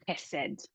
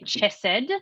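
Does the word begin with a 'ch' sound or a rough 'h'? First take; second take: rough h; ch. First: It begins with a rough, throaty 'h' sound. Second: It begins with a 'ch' sound as in 'church'. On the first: The speaker calls it right. "you say chesed ... it's quite a rough sound" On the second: The speaker calls it wrong. "you don't say chesed"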